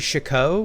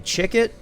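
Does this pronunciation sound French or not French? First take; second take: French; not French. First: The name is said with a French sound. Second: The name is said without a French sound. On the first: This is how the speaker says it. "I say Chacot, which it's, you know, to me is very French" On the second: This is how some other people say it. "Some people I've heard say Chicket"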